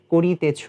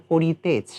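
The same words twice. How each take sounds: First: করিতেছ said short as korchho, the ি and তে dropped; spoken form. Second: করিতেছ said in full as written, every syllable ko-ri-te-chho; spelling pronunciation. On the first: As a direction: say করিতেছ the way people talk, korchho. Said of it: "আমরা বলি". (করিতেছ কথ্য রূপে কোরছো উচ্চারণ) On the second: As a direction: read করিতেছ letter by letter like the spelling. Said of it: "কিন্তু এটা কখনোই বলি না". (করিতেছ বানান ধরে পুরোটা উচ্চারণ) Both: Shown as a demonstration.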